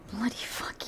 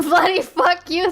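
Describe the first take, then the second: First: Whispered echo. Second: Laughing repeat. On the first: Viewer quietly repeating the clip's swearing in a whisper. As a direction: repeat "bloody fuck you" as a soft unvoiced whisper. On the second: Viewer repeating the clip's swearing, laughing aloud. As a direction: say "bloody fuck you" aloud through a laugh. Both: Retold or imitated.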